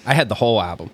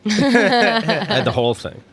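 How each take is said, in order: First: Said in the usual way. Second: Slower, higher, laughing through it; laughing emphasis. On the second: Shown as a demonstration. Bragging about owning a whole album, slow laughing delivery. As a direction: stretch it out, amused at yourself. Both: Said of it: "we live in a world of MP3s".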